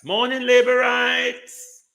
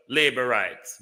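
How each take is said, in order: First: Much higher and louder, hammed-up hello; a loud, mocking good-morning; mock hearty greeting. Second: Said in the usual way. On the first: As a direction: call it out like a mocking street greeting. Mock greeting, plain then shouted.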